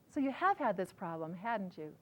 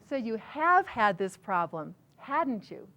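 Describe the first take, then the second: First: It is said lightly and conversationally. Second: It is said with marked emphasis on words.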